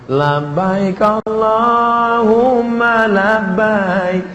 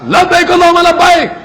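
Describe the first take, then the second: First: It is said softly and gently. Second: It is said loudly and forcefully.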